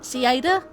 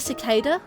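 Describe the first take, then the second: First: The middle 'c' sound is left out. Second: The middle 'c' sound is clearly said. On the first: The speaker calls it wrong. "I thought it was pronounced sand ci- ci- ciada" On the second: The speaker calls it right. "but it's actually a cicada"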